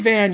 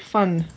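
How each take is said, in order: First: The word begins with a voiced V sound. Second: The word begins with a voiceless F sound. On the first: The speaker calls it wrong. "You don't say Van" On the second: The speaker calls it right. "you say Fun"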